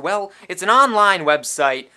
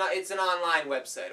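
First: Online website shouted in a pushy ad voice; loud sales bark; loud pitch. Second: Said in the usual way. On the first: Acted. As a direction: push the line hard, almost yelling. Loud shady pitch line.

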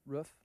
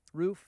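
First: "roof" with a short oo as in "book"; "roof" short, rhyming loosely with "hoof"; English-bent roof. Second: "Roof" with a long oo; "Roof" with a full oo sound, lifted at the end; East Coast roof. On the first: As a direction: say "roof" with a clipped English vowel. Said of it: "the more English bent on it". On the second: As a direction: say "Roof" to rhyme with "proof". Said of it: "East Coast, we're roof". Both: Shown as a demonstration.

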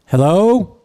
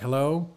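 First: Put-on loud, raised old-timer hello; imitating an old man greeting the room, loud drawl; slow-talking old Florida man. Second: Said in the usual way. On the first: Old man opening his talk to the room, imitated drawl. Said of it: "he gets up there and he's like". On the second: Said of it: "And everybody's like".

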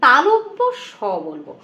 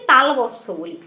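First: তালব্য স said slowly and carefully; correct pronunciation. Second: তালবস্য said as the common mistaken form; wrong pronunciation. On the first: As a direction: give the correct তালব্য স, drawn out. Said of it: "উচ্চারণটা একদম perfect যেন হয়". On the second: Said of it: "এটা তালবস্য বলবো না". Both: Shown as a demonstration.

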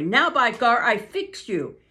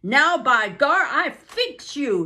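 First: Louder angry threat; a milder take of the angry driver's threat. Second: Loud, slow, higher angry threat; angry driver threatening Buck, loud and slow. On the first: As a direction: threaten the dog with the club. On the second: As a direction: threaten the dog, furious. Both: Acted. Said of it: "Francois was angry".

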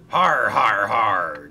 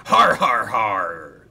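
First: Loud hearty har har; pirate laugh. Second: Pirate laugh. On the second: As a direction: cackle like a gleeful pirate. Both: A narrator's reading. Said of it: "chuckled Sailor John".

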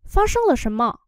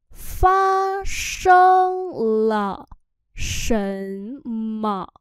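First: Said in the usual way. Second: Very slow, each syllable drawn out; teacher's slow-motion Chinese demo; slow model reading. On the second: Shown as a demonstration. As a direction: stretch "Phát sinh là" out syllable by syllable. Same phrase drawn out syllable by syllable.

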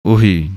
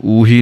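First: ਉਹੀ said quick, the short o barely held; light quick ohi. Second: ਊਹੀ said with a long drawn uu, as the mistake; long uuhi, the wrong way. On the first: Teacher to students, modelling ਉਹੀ quick and light. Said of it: "ਜਲਦੀ ਨਾਲ ਪੜ੍ਹੀ ਜਾਣੀ ਹੈ". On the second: Teacher to students, showing the wrong long ਊਹੀ. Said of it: "ਇਹਨੂੰ ਊਹੀ ਨਹੀਂ ਕਹਿਣਾ ਹੈ". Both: Shown as a demonstration.

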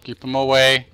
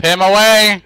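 First: Said in the usual way. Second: Louder, slow, drawn-out cry; urgent yell. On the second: Real, not acted. Player fending off an enemy, urgent drawn-out yell. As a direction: yell it out, stretching each word.

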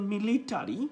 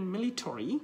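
First: মিলিটারি with a full "ta-ri" ending, rising; মিলিটারি said "mi-li-ta-ri", the ending fully sounded; wrong pronunciation. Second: মিলিটারি with a reduced "to-ri" ending; correct pronunciation. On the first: Teacher shows students the pronunciation to avoid. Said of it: "এটা না করে আপনি উচ্চারণ করবেন মিলিটারি". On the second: Teacher gives the right version, slowly rising. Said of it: "উচ্চারণ করবেন মিলিটারি". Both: Shown as a demonstration.

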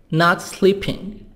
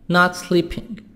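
Both takes have the same delivery.

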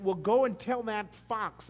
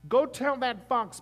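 First: Slow, firm quote of Jesus; voicing Jesus. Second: Slow, higher and much louder; emphatic repeat. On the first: Pastor quoting Jesus's reply to Herod, firm and slow. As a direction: set up the line before hitting it. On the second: Retold or imitated. Pastor repeating Jesus's defiance to the congregation, loud and slow. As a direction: punch it out the second time.

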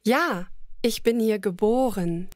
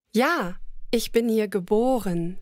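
No difference in how they are said.

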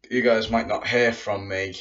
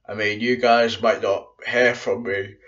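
First: Said in the usual way. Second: Stifling a yawn; about to yawn. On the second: Real, not acted. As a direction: yawn creeping into the words. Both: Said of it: "about to yawn then".

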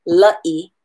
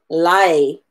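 First: "la'i" with a catch before the i; "la'i", break the vowels with a glottal stop. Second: "lai" run together as one glide; "lai", no break, vowels melted together; gliding lai. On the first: Teacher modelling the right way to say la'i. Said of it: "So we pronounce it la'i". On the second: Teacher showing the wrong way to say lai. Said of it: "as opposed to lai". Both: Shown as a demonstration.

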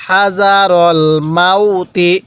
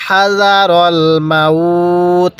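First: "মাউতি" ending in a sounded ti; slow recitation carrying through to the i of মাউতি; joined reading. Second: "মাউত" held long, closing on a bare t; slow recitation stopping on the t of মাউত; stopped reading. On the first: Teacher showing reading without a pause, joined ending. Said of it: "যদি ওয়াকফ না করি". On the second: Teacher showing how to pause here, drawn-out stop. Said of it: "যদি আমরা এখানে ওয়াকফ করি". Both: Shown as a demonstration.

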